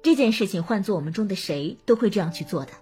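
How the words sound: It sounds like a polite, tactful refusal.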